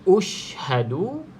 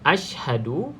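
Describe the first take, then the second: First: The word begins with a u vowel. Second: The word begins with an a vowel. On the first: "Jawapan B ushhadu ... B baris depan" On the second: "jawapan A ashhadu ... A baris atas"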